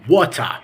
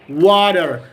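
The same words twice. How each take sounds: First: It is said in a British accent, with no final r. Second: It is said in an American accent, with a d-like t. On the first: "In the British accent, we can say water" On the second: "in the American accent, we can say water. Water. Slight D"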